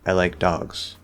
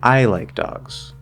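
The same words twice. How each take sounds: First: The word dogs is highest and most stressed. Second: The word I is highest and most stressed. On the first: "normally, dogs gets that little extra rise" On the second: "I as the focus word"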